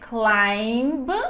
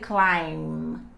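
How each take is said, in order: First: The final B sound is pronounced. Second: The final B sound is silent. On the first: The speaker calls it wrong. "So you not say climb" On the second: The speaker calls it right. "you say climb. Forget about B here"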